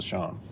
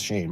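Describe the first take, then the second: First: The name is said with an 'aw' vowel. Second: The name is said with an 'ay' vowel. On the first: This is how the speaker's wife says the name. "but wife says Sean" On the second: This is how the speaker himself says the name. "I say it's Shane"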